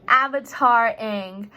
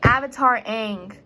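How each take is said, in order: First: "Avatar Aang" drawn out slowly, each word leaned on; slow emphatic repeat. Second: Said in the usual way. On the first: Shown as a demonstration. Naming her costume to the class, slow and emphatic. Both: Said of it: "you know".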